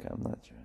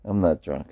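First: Breathy unvoiced whisper, barely there. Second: Said in the usual way. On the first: Denying to the chat in a mock whisper. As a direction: drop it to a secret whisper. Jokey denial, repeated in whisper.

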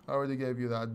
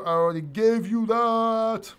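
First: Said in the usual way. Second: High, loud, drawn-out complaint; mock exasperation. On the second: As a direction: stretch it out in playful exasperation. Exasperated at a repeated chat question.

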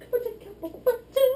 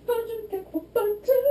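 No difference in how they are said.

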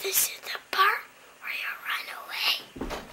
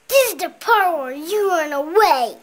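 First: Soft unvoiced whisper. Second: Said in the usual way. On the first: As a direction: breathe it as a secret. Child repeats whispered movie line.

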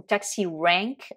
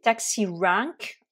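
First: Taxi rank said the American way, flatter a in rank; relaxed American taxi rank; American accent. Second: Taxi rank said the British way, open a in rank; crisp British taxi rank; British accent. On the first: Teacher demonstrating American accent. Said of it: "avec l'accent américain". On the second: Teacher demonstrating British accent. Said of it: "avec l'accent britannique". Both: Shown as a demonstration.

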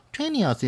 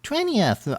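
First: "Twentieth" said as "tweniath", the middle T dropped; barely touch the T in "Twentieth"; soft t twentieth. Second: "Twentieth" with the t after n softened, almost "twenieth"; soft t twentieth. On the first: Teacher repeats the softened T of "Twentieth". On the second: Teacher copies the native speaker's weak T in "Twentieth". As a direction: let the T fade in "Twentieth". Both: Shown as a demonstration. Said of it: "T 사운드를 더 약하게".

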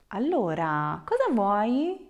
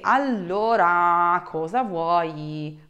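First: Cheerful greeting lifting into a bright question; happy and cheerful. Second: Slow, drawn-out, fed-up demand; irritated, exasperated. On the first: Teacher shows students a friendly offer to help, super happy and cheerful. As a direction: ask it cheerily, rising at the end. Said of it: "like super happy and cheerful". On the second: Teacher shows someone getting on her nerves, exasperated and slow. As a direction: drag each word out as if annoyed. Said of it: "you are just getting on my nerves". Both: Shown as a demonstration.

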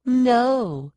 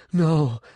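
First: High, forceful no; raised, mocking refusal; defiant echo. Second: Short, restrained refusal; an understated no; refusing. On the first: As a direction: throw the word back, pitched way up. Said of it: "Sean echoed". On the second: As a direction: refuse without shouting. Morgan's refusal, then echoed by Sean. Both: A narrator's reading.

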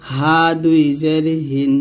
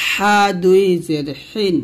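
First: Said in the usual way. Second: Tight-throated h in হিন; slow pharyngeal হা; pressed ha. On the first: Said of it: "নরমালভাবে উচ্চারণ করব". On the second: Shown as a demonstration. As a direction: press হা and হিন with thin air, slowly. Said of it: "এই হাটা আমরা কিন্তু চাপ দিব".

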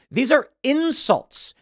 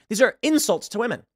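First: "are" drawn out high and slow; stress on ARE. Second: Said in the usual way. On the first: Real, not acted. To viewers, indignant: "are" pushed up high and slow. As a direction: lean hard on "are", slowly.

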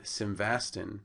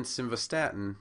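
First: Slow simvastin, sim-VAS-tin; mispronounced drug name. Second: Simvastatin said sim-va-STAT-in; stress on third syllable. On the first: Lecturer showing the mispronunciation, simvastin said slowly. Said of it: "also on the first syllable". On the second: Lecturer showing where accent should be, simvastatin stressed on third syllable. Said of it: "actually on the third syllable". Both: Shown as a demonstration.

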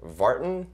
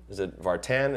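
First: "Vartan" with a weak, reduced second syllable, VAR-tun; guessing the name. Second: "Vartan" with a full "tan" in the second syllable; guessing the name. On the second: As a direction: ask "Vartan" as var-TAN, rhyming with man. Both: Retold or imitated. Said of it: "hard time with my last name".

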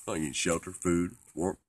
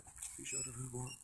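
First: Loud, punchy list of needs; raised voice, higher pitch; emphatic declaration. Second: Soft, very high little voice; tiny high-pitched repeat; small-voiced echo. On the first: Pretend. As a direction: declare each item loudly. Lists the basic needs emphatically. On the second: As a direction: echo it back high and quiet.

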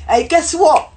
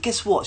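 First: High, loud, eager call; excited greeting. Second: Restrained, quiet opener; calm. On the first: Bubbly guy calling to a girl on the train, excited. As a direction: pipe up brightly to get attention. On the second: Approaching the girl opposite to talk, calm. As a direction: say it gently without hailing. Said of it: "talk to her a little calmly". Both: Retold or imitated.

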